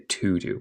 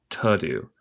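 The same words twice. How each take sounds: First: The word 'to' is full and clear. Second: The word 'to' is quick and reduced. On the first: "en vez de to do" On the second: "Cuando hablamos rápido decimos más como to do"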